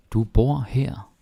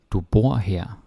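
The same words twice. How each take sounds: First: Du bor her said slowly with bor stressed; slow, clear model. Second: Said in the usual way. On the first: Shown as a demonstration. Teacher modelling a slow sentence for the class. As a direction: spell it out slowly for learners.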